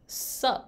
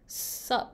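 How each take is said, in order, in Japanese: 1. 最初の単語が落ちて、「sup」だけになる。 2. 最初の単語が落ちて、「sup」だけになる。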